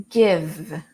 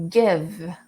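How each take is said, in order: No difference in how they are said.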